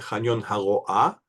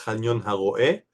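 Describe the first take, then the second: First: The name ends with an 'ah' vowel. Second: The name ends with an 'eh' vowel. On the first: The speaker calls it right. "Non, c'est Pragnon Haroa" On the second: The speaker calls it wrong. "ils disent Pragnon Haroé"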